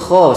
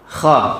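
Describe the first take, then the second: First: The vowel after kh sounds like o. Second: The vowel after kh sounds like a. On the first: The speaker calls it wrong. "salah itu, Pak" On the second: The speaker calls it right. "Kalau pengucapan transliterasi bahasa Indonesia ya biasa aja"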